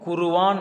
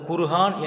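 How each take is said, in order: First: A v sound joins the two middle vowels. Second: An h sound joins the two middle vowels. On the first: "உச்சரிப்பது தவறு" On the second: "உச்சரிப்பது தவறு"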